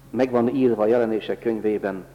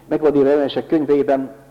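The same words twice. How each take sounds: First: It is spoken at a slower pace. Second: It is spoken at a faster pace.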